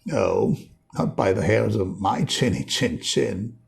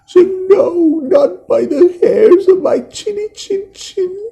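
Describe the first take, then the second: First: Lightly voiced confident pig; a hint of a cocky third pig; understated swagger. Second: Very high, loud, trembling squeak; a terrified piglet crying out; scared little pig. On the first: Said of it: "add a little more swagger". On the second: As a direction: panicky high piggy wail. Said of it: "the little pig who is scared". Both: Shown as a demonstration.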